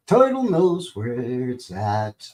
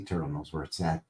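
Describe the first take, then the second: First: Slow, drawn-out silly voice; slow goofy drawl. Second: Said in the usual way. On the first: Shown as a demonstration. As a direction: stretch every word out lazily. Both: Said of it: "goofy voices".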